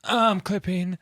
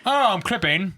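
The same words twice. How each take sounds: First: Moaning voice. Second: High, moaned tag line; moaning voice. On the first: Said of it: "in moaning voice". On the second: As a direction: moan it like a sexy tag. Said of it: "you get moaning or British". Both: Shown as a demonstration.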